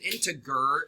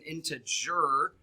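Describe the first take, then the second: First: The g is hard, like in Tigger. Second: The g is soft, like a j. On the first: The speaker calls it wrong. "That's not how you say it" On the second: The speaker calls it right. "It's an integer"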